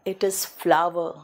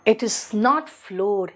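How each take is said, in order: First: "flower" said "fla-ver"; slow, lower "flower" with an "ah" vowel; flour as flower. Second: "floor" with one long "o"; slow, spaced words ending on "floor"; not floor. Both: Shown as a demonstration.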